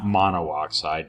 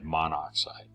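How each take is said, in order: First: Two o vowels are said, mono plus oxide. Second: Only one o vowel is said before xide. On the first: The speaker calls it wrong. "Not monooxide" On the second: The speaker calls it right.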